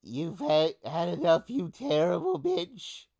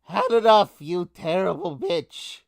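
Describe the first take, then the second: First: High-pitched rat king voice; Jubba rat. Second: Loud, high-pitched yell at the enemy; rat king yell. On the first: Rat king to his enemy, in rat voice. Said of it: "It's the Jubba rat". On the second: Rat king to his enemy, yelling. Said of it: "yells to his enemy". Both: Acted.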